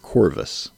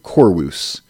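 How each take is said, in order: First: The V sound is pronounced hard. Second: The V sound is pronounced softly.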